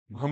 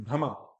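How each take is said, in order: First: भ्रम cut off as "bhram"; final vowel dropped. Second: भ्रमा lower, as "bhra-ma"; full final ma. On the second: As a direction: keep the vowel at the end of भ्रमा. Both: Shown as a demonstration. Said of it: "भ्रम नहीं".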